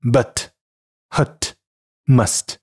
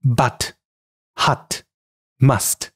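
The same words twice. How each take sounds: First: American but, hut, must with central uh; American English demo of but, hut, must; American pronunciation. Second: British English demo of but, hut, must; British pronunciation. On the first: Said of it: "美式英语". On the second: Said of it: "英式英语". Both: Shown as a demonstration.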